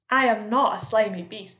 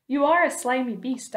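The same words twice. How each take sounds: First: Louder denial at natural pitch; indignant earthworm. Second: Higher-pitched centipede jibe; insulting centipede. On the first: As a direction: firmly deny the insult. Earthworm indignantly denies centipede's insult. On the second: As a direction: accuse the earthworm, voice raised a little. Centipede insults earthworm, earthworm denies. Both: A narrator's reading.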